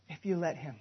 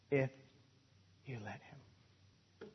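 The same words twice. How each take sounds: First: Said in the usual way. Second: Breathy hush, slow and much softer; whispered. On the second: Shown as a demonstration. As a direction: drop to a whisper to drive it home. Hushed repeat of the line.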